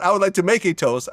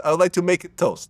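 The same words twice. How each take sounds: First: Said in the usual way. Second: "make it toast" in a light Russian accent. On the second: Shown as a demonstration. Showing how Russians put it in the wrong place, light Russian accent. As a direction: stress the stray "it" in "make it toast", Russian style. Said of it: "put an it in the wrong place".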